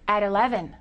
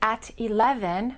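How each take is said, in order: First: The T is linked as a soft D sound. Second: The T is a crisp, separate T sound. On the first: The speaker calls it right. "we say" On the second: The speaker calls it wrong. "We don't say"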